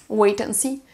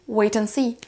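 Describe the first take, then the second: The two takes are said the same way.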